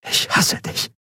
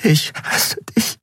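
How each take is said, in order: First: Hushed, voiceless whisper; barely voiced whisper. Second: Slow, breaking whisper near tears; halting, tearful whisper. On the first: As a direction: whisper the words with hurt. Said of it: "flüsterte sie". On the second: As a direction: whisper it slowly, starting to cry. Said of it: "Dann begann sie zu weinen". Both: A narrator's reading.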